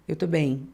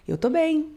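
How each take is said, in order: First: "Eu tô bem" said low, voice dropping through to "bem"; falling intonation. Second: "Eu tô bem" pitched high, lifting lightly on "bem"; raised final tone. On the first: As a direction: let the voice fall on "bem", as if not really fine. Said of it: "ela tá caindo com a voz". ("Eu tô bem" com a voz caindo no final) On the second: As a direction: lift "bem" higher to show things are better. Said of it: "Eu dei um leve agudo no final". ("Eu tô bem" com um leve agudo no final) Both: Shown as a demonstration.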